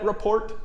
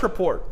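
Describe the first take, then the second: First: It is said like the word 'report'. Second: It is said as 'rapport', unlike 'report'. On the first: The speaker calls it wrong. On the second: The speaker calls it right.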